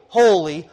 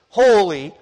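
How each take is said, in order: Both takes have the same delivery.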